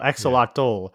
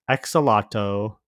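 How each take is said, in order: First: The last syllable sounds like 'toll'. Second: The last syllable sounds like 'toe'. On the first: The speaker calls it right. "It's a toll" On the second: The speaker calls it wrong. "there's not toe"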